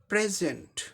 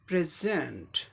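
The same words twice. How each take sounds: First: The stress is on the first syllable. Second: The stress is on the second syllable. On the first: It is a noun meaning a gift. "पहले syllable पे आता है" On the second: It is a verb meaning to give or to present something. "Second syllable पे stress है"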